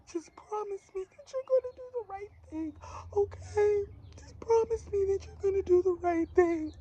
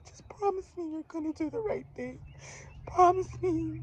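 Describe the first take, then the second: First: High, tearful, crying plea; crying mother. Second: Very high, teary pleading; crying mother again. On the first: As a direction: beg through tears, voice pitched way up. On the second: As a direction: imitate her sobbing plea, pitched high. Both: Retold or imitated. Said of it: "that's how she was sounding to me".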